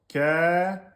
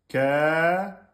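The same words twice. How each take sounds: Both takes have the same delivery.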